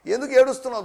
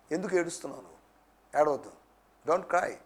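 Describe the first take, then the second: First: Raised, pressing preacher's question; firm, projected challenge; challenging question. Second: Low, soft, soothing voice; hushed, lower-pitched reassurance; tender consoling. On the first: Preacher challenges the congregation's weeping. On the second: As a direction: gently comfort someone who is crying. Preacher consoles someone who weeps. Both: Acted.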